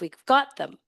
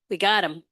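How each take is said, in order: First: The word 'them' is said in full. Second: The word 'them' loses its first sound. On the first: The speaker calls it right. "instead of" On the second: The speaker calls it wrong. "Dropping uh, the beginnings of words"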